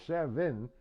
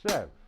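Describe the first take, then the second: First: The word is said with two syllables. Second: The word is cut to one syllable. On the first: "it's a two syllables seven" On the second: "I go sev"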